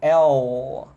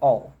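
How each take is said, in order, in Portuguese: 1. A palavra é alongada devagar e com força. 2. A palavra é dita rapidamente e com suavidade. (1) "eu tô falando de uma forma mais lenta, né? Que não é natural" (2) "Se você fala de uma forma mais natural, lógico que fica um pouco mais suave"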